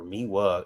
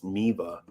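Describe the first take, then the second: First: The middle consonant is a W sound. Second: The middle consonant is a V sound. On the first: "It's W in it" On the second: "it should be pronounced with a V instead of a W"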